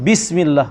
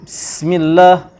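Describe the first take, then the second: First: The first syllable is a clear 'bi'. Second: The first syllable is not a clear 'bi'. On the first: The speaker calls it right. "kena sebut bismillah. Bunyi bi" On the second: The speaker calls it wrong. "Jangan sebut bismillah"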